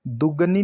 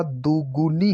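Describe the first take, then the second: First: दुगनी as "du-ga-nee"; short a after g in दुगनी; wrong pronunciation. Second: दुगुनी as "du-gu-nee"; correct pronunciation. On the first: Teacher showing the error, दुगनी with ga. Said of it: "नहीं होता". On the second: Teacher correcting the word, दुगुनी with gu. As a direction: clear u after g in दुगुनी. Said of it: "होता है". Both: Shown as a demonstration.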